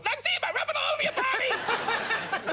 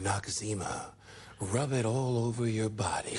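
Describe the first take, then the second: First: It is said in a wound-up, hyper way. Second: It is said in a calm, smooth way.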